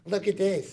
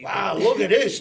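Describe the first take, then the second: First: It is said in a restrained, subdued way. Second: It is said with big, exuberant excitement.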